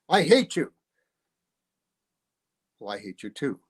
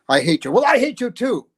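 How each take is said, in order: First: A long pause comes before the reply. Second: The reply follows right away without a pause.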